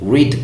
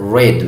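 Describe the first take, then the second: First: It is pronounced as the present-tense form. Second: It is pronounced as the past-tense form. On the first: The action happens now or habitually. "read ካልኩ present ነው" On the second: The action happened in the past. "past ማረገው ከሆነ read ብዬ ነው የማነበው"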